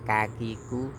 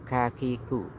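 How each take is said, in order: No difference in how they are said.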